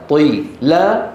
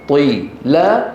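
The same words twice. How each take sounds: Both takes have the same delivery.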